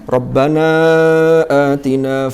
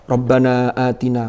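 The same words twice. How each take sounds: First: The long vowel is drawn out. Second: The long vowel is kept short. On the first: "Ini mad jaiz munfasil" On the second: "kurang dawa"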